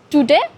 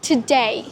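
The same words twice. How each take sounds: First: The stress is on the first syllable. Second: The stress is on the second syllable. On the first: The speaker calls it wrong. "it seems like wrong" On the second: The speaker calls it right. "Like the second stress, get the stress"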